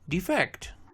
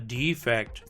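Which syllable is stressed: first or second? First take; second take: second; first. First: The stress is on the second syllable. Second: The stress is on the first syllable. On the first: It is used as a verb. "Two-syllable verbs are stressed on the second syllable" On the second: It is used as a noun. "Two-syllable nouns are stressed on the first syllable"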